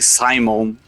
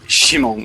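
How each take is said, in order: First: The name begins with an s sound. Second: The name begins with an sh sound. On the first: "they could say Simon" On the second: "but they say Shimon instead sometimes"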